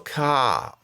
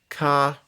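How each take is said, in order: First: The word is said with a falling tone. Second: The word is said with a high tone. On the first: "ka falling" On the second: "ka high tone"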